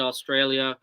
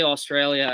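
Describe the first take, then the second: First: Australia with a light Australian accent, Aw-strail-ya. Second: Said in the usual way. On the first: Real, not acted. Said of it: "every time I say Australia, I say it in the Australian accent". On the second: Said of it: "every time I say Australia".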